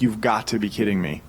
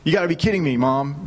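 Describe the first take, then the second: First: Low, exasperated disbelief; understated, fed-up disbelief; retold frustration. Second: Retold frustration. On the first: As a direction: let mild frustration sink the voice. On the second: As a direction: imitate a frustrated son protesting. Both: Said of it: "getting so frustrated".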